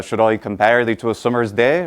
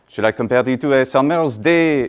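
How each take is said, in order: First: A light hint of Shakespearean English accent. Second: Exaggerated French accent, flat stress, mangled r's; caricature French accent. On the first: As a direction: recite it like Shakespeare's own accent. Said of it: "which would have sounded something like". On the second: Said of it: "caricature of an accent".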